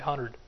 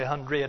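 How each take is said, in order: First: The word hundred is said in an East Texas accent. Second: The word hundred is said in a standard accent. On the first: "My East Texas accent comes out" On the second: "I don't say 100"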